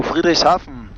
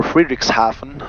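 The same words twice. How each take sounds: First: Said in the usual way. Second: Friedrichshafen said the English way; anglicised Friedrichshafen, as English speakers say it; English pronunciation. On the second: Shown as a demonstration. Pilot showing viewers how English people say the town, English pronunciation of Friedrichshafen. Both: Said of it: "how the English people would say".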